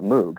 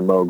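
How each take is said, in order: First: The vowel sounds like moo. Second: The vowel rhymes with rogue. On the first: The speaker calls it wrong. "the temptation is to call it Moog. That's what it looks like" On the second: The speaker calls it right. "The whole point was for it to rhyme"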